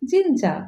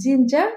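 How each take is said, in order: First: "জিঞ্জা" with silent final r; correct pronunciation. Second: "জিঞ্জার" with the final r sounded; common mispronunciation. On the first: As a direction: end জিঞ্জা on an open a. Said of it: "correct pronunciation হবে". ("জিঞ্জা" শেষে র ছাড়া শুদ্ধ উচ্চারণ) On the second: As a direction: say জিঞ্জার ending in a clear r. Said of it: "বলে থাকি". ("জিঞ্জার" শেষে র-সহ প্রচলিত উচ্চারণ) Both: Shown as a demonstration.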